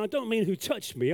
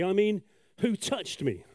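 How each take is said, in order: First: Said in the usual way. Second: "who touched me" said slowly and pointedly; slower, deliberate stress on "who touched me"; meaningful emphasis. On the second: Retold or imitated. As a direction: weigh each word of "who touched me".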